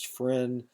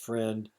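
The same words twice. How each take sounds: First: The final consonant is left off. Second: The final consonant is pronounced. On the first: "final consonants are omitted" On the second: "instead of"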